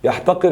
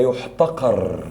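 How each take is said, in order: First: يحتقر read "yahtaqir", ya first, i last; active vowels. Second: يحتقر read "yuhtaqar", yu first, a last; passive vowels. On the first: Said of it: "حول من مبني للمعلوم لمبني". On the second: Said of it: "لمبني المجهول لمبني معلوم". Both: Shown as a demonstration.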